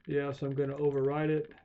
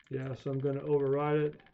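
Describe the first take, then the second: No difference in how they are said.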